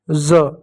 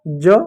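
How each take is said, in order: First: ज said as a buzzing z; dotted z sound. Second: ज said with a j as in jam; plain j sound. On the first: Teacher drilling the dotted letter, z sound. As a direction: say ज like English z. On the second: Teacher drilling the undotted letter, j sound. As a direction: say ज as English j. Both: Shown as a demonstration. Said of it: "नीचे बिंदी लग जाए".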